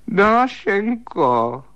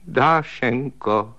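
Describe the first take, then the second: First: High, very slow wailing call. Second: Drawn out, tearful calling of her name. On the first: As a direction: call out her name in a drawn high wail. Volá ji ve tmě. (vysoké protažené naříkavé volání) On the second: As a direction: call her name slowly, close to tears. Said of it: "řekl plačtivým hlasem". (plačtivě protažené oslovení) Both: A narrator's reading.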